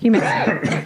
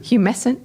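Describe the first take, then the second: First: The word ends in a 'tant' sound. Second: The word ends in a 'sent' sound. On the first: The speaker calls it right. "Oh, there's T in there" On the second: The speaker calls it wrong. "I said"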